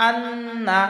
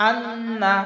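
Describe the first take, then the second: No difference in how they are said.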